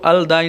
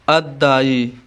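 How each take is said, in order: First: The L is pronounced before a single D. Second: The L is silent and the D is doubled. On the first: The speaker calls it wrong. "मैं यहाँ पे इसको अलदाई नहीं पढ़ता हूँ" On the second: The speaker calls it right. "इसी तरह मैं कहूँ अद्दाई"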